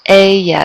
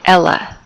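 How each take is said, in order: First: The double L sounds like an English Y. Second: The double L sounds like an English L. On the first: The speaker calls it right. "It's ella. It sounds like a Y, yeah sound" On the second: The speaker calls it wrong. "it does not sound like la, like ella"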